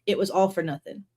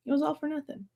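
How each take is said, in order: First: Said in the usual way. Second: "It was all for nothing" echoed much softer, a little higher; quiet repeat. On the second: Real, not acted. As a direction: murmur "It was all for nothing" back to yourself. Softly repeats own line.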